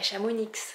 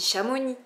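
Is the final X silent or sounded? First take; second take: sounded; silent. First: The final X is pronounced. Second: The final X is not pronounced. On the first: The speaker calls it wrong. "pas Chamonix" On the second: The speaker calls it right. "on dit Chamonix"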